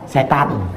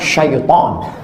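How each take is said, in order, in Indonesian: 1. Kata ini dimulai dengan bunyi s biasa. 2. Kata ini dimulai dengan bunyi sh. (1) "orang kita payah menyebut shin sama to" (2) "Sebetulnya nama dia syaitan"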